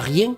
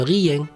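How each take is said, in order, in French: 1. Le mot se dit en une seule syllabe. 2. Le mot se découpe en deux syllabes. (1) "Ils disent pas" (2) "ils disent"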